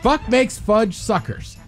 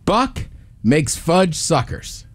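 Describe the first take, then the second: First: It is said quickly, as fast as possible. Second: It is said at a normal, careful pace.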